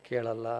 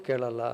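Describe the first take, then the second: No difference in how they are said.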